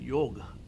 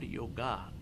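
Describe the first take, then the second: First: The word ends without a final vowel. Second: The word ends with a clear final vowel. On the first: The speaker calls it right. "It is a yoga. ... ga is a silent" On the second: The speaker calls it wrong. "It is not yoga"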